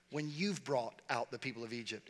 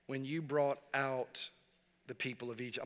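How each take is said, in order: First: Said in the usual way. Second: Slowed down, trailing softer, mulling it over; slow pondering reread. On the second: Shown as a demonstration. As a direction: read it back slowly as if questioning God. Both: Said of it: "I talk back to the Bible".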